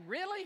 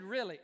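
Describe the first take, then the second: First: High, loud rising "Really?"; incredulous question. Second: Firm confirmation. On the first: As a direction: ask it in open disbelief, acted out. Retold doubting reaction, then the answer. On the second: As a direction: answer flatly that it is so. Retold firm answer to his question. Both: Retold or imitated.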